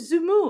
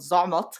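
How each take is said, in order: First: The name is said with French sounds. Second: The name is said with Arabic sounds.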